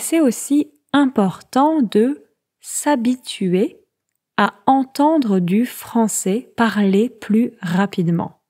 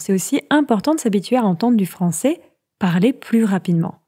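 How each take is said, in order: First: The sentence is spoken at a slow pace. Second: The sentence is spoken at a fast pace.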